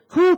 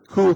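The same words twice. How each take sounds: First: It is said in a higher pitched voice. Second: It is said in a lower pitched voice.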